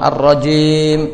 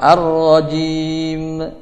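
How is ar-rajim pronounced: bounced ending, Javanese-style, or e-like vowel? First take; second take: e-like vowel; bounced ending. First: The vowel after j leans toward e. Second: The j is said with an echoing bounce. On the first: "jim dengan imalah kubra"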